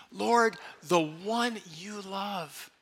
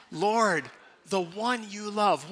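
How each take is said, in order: First: Slow prayerful repeat. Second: Call and response. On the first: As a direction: let each word settle. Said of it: "One more time". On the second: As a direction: say it together, clearly. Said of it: "Let's say it with me". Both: Shown as a demonstration.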